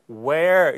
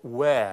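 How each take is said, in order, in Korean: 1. 끝의 r은 분명하게 발음됩니다. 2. 끝의 r은 생략됩니다. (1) "where 이렇게 발음되지 않고" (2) "where 이렇게 들립니다"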